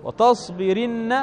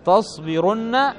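First: وتصبرن slowly as wa-tas-bi-RIN-na, with i; kasra before nun. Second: تصبرن slowly as tas-bi-RUN-na, with u; damma before nun. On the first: Teacher contrasting two forms for students, وتصبرن with kasra. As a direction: stretch وتصبرن out, i before the doubled n. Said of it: "لأن الفعل قبل النون مكسور". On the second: Teacher contrasting two forms for students, تصبرن with damma. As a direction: stretch تصبرن out, u before the doubled n. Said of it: "تعرف ذلك بالضمة". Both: Shown as a demonstration.

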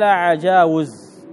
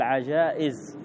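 First: عجاوز with a clear w after the long aa; wrong form with waw. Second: عجائز with a glottal stop after long aa; hamza for waw. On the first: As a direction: draw out عجاوز, sounding the waw. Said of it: "ما قال عجاوز". (نطق عجاوز بواو صريحة) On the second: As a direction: say عجائز, catching the hamza before the i. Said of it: "قال عجائز، فأبدل الواو". (نطق عجائز بالهمزة بعد الألف) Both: Shown as a demonstration.

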